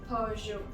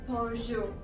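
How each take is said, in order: Both takes have the same delivery.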